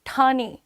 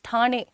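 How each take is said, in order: No difference in how they are said.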